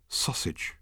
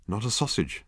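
First: Soft unvoiced murmur to himself; whispered thought. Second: Said in the usual way. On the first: A narrator's reading. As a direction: breathe it as a private thought. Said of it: "thought Arthur to himself". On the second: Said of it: "said Ford".

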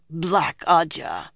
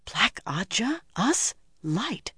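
First: Slow, reluctant naming; distasteful. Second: High, whispered disbelief; shocked. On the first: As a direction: drag out the hated name. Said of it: "mouth still twisted around those words". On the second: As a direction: gasp it softly in shock. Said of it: "Egwene gaped in shock". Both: A narrator's reading.

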